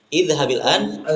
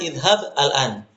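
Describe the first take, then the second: First: The verb joins the next word with an i vowel. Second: The verb ends without a linking vowel. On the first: "Kalau diwasolkan dibacanya" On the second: "Aslinya adalah"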